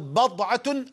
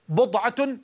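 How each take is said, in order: First: The first vowel is a, as in bad'a. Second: The first vowel is u, as in bud'a. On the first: "الفتح" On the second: "الضم"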